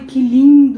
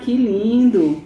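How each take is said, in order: First: It sounds warm and genuinely admiring. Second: It sounds ironic and displeased. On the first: The thing really is lovely. "coisa muito bonita e fala assim" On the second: The thing is actually a mess. "quando você chega e vê uma bagunça"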